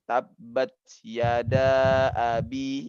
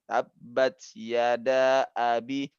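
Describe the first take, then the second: First: The vowel before abi is held long. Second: The vowel before abi is held only briefly. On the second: "dua harokat aja kan"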